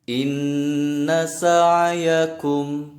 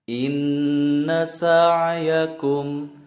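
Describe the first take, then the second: No difference in how they are said.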